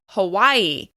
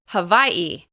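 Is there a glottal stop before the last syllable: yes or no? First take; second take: no; yes. First: There is no catch before the last syllable. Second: A glottal stop comes before the last syllable. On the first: This is how mainland Americans say it. "You may hear people say Hawaii" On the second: This is how native Hawaiians say it. "native Hawaiians say Hawaii"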